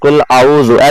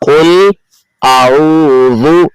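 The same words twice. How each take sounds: First: The hamza and ain sounds run together as one. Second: The hamza and ain sounds are kept distinct. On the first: The speaker calls it wrong. "ऐसे नहीं" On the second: The speaker calls it right. "हमजा और आइन को अलहदा पढ़ना"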